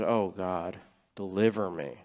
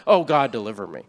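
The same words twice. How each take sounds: First: Lower, softer, sincere plea to God; heartfelt prayer. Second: Rote prayer. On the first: Retold or imitated. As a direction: pray it quietly, truly meaning every word. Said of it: "And from my heart". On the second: Shown as a demonstration. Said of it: "you might pray that prayer".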